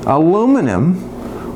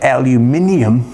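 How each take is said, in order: First: The word is said with four syllables. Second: The word is said with five syllables.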